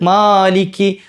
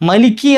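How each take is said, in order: First: The first vowel is held for two counts. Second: The first vowel is short, with no lengthening. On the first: The speaker calls it right. "അവിടെ രണ്ട് ഹർക്കത്ത് നീട്ടിയാൽ മതി" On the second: The speaker calls it wrong. "മാലിക്കി എന്നുള്ള നീട്ട് തന്നെ പോയിട്ട് മലിക്കി ആയി പോകലുണ്ട്"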